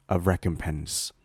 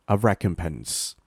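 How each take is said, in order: No difference in how they are said.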